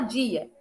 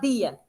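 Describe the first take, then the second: First: The d is a hissing, j-like sound. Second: The d is a plain, hard stop sound. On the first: "nós falamos o D chiado" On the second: "A gente não fala dia"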